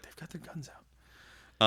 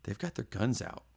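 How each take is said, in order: First: Slow, whispered deadpan warning; monotone whisper. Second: Monotone quiet. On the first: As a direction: hush it out slowly, no emotion. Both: Retold or imitated. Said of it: "in a very monotone, quiet voice".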